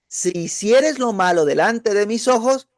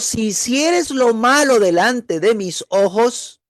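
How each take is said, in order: First: It is read at a quicker, normal pace. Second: It is read at a slower, deliberate pace.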